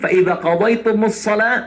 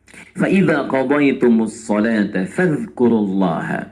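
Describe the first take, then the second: First: The recitation stops after the word for prayer. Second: The recitation continues without stopping after prayer. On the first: Prayer is done only to discharge the obligation. "Kalau Anda berhenti di ayat ini" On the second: After prayer one should go on remembering God. "Tapi kalau Anda teruskan"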